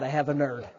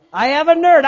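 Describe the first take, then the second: First: Said in the usual way. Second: I have a nerd, higher and louder; excited repeat. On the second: Retold or imitated. To the congregation, excited louder repeat. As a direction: burst out I have a nerd the second time. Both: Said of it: "I said".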